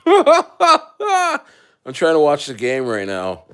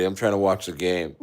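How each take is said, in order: First: Drawn out through laughter, slow and higher; laughing mock whine. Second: Said in the usual way. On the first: Fan waving off the military during the game, slow laughing whine. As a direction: whine it slowly while laughing.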